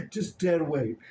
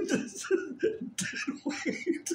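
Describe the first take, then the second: First: Said in the usual way. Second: "dead weight" squeezed out breathless and high through laughter; helpless laughing under the dog. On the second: Real, not acted. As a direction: giggle the words "just dead weight" almost voiceless.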